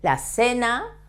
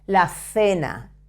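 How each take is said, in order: First: The c sounds like a strong s. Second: The c sounds like English th.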